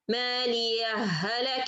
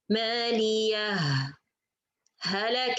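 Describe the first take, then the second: First: The two words merge with no break. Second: A brief breathless pause separates the two words. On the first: "I will connect with إدغام" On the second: "I pause, not stop. I just pause for a second and continue"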